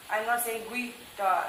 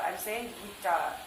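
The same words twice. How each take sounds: First: "guitar" said with a sounded w, gwitar; the wrong take, "guitar" as gwi-tar; mock mistake, "guitar" with a w glide. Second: "guitar" as git-ar, no w sound; softer, "guitar" said git-ar; right way. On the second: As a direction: correct take, "guitar" with hard g then itar. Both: Shown as a demonstration.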